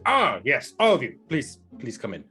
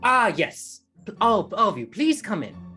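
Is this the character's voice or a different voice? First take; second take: different voice; character voice. First: It is said in a voice not the character's. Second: It is said in the character's put-on voice.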